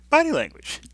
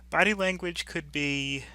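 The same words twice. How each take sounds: First: Body language burst out high and loud as a new heading; emphatic topic heading. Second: Said in the usual way. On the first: Real, not acted. Lecturer to students, introducing the new topic: loud, high emphatic announcement.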